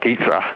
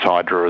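First: The name is said with a Greek-style pronunciation. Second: The name is said with an anglicized pronunciation. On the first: "The Greeks would say something like Aedra" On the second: "but often pronounced as Hydra as well"

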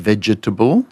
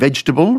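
First: The word is said with four syllables. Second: The word is said with three syllables. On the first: This is the fuller, less usual form. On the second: This is the usual everyday form.

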